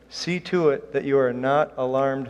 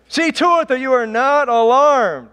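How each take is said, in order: First: Said in the usual way. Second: Loud, high-pitched booming emphasis; emphatic shout. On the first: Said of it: "I wanna emphasize that statement". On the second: Shown as a demonstration. Preacher stressing a verse to the congregation, emphatic shout. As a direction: shout it out to drive the statement home. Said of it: "figured out a way to emphasize".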